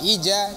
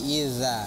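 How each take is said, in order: First: The middle consonant sounds like 'j'. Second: The middle consonant sounds like 'z'. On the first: The speaker calls it wrong. "jangan ija ... kalau ija jadi jim nih dia" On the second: The speaker calls it right. "tapi iza ... Ujung lidah, ujung gigi"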